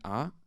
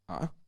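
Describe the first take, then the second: First: The vowel starts high and rises higher. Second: The vowel rises with a catch in the throat. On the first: "an acute accent means um, um, high rising tone" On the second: "glottalized rising"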